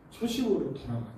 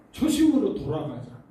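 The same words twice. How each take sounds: First: Put-on 초심으로 said softer in an old pastor's voice; a hint of the retired pastor; retired pastor's version. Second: 초심으로 stressed, falling firmly; a preacher's firm call to return; firm exhortation. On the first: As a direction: lightly voice an elderly pastor, 초심으로 falling gently. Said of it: "은퇴하신 목사님". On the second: Shown as a demonstration. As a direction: urge the 초심으로 home, louder and falling.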